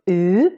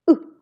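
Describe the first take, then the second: First: The vowel is held long. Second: The vowel is cut short. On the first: "the long version of the U" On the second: "the short version of the U"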